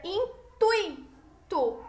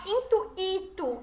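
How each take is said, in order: First: "intuito" slowly as in-TUI-to, "ui" in one syllable; correct intuito. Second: "intuito" as in-tu-Í-to, with "u" and "i" split; mispronounced intuito. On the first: Teacher shows class the correct form, in-TUI-to. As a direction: stress TUI in a drawn-out "intuito". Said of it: "Olha como eu pronuncio essa palavra". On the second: Teacher shows what we don't say, in-tu-Í-to. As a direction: stress a separate "í" in "intuito". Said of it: "A gente não fala intuito". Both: Shown as a demonstration.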